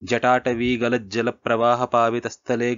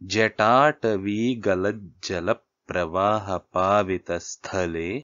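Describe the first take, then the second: First: It is recited at a fast pace. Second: It is recited at a slow, normal pace. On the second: "ఇది ఇది మామూలుగా చదివితే"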